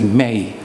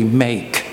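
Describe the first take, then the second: First: The word ends without any k sound. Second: The word ends with a clear k sound. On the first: "I say may" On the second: "I don't say make"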